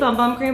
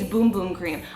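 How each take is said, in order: First: The vowel is short, as in 'bum'. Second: The vowel is long, as in 'boom'. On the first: The speaker calls it wrong. "if y'all are saying Bum Bum, y'all are saying it wrong" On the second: The speaker calls it right. "It's Boom Boom, you're welcome"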